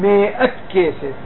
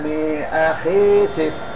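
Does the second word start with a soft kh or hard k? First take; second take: hard k; soft kh. First: The second word starts with a hard k sound. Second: The second word starts with a soft kh sound. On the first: The speaker calls it wrong. "לא אומרים" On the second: The speaker calls it right. "לא מקבל דגש לאחריה"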